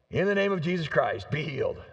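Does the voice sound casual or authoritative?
casual. It is said in a casual, ordinary voice.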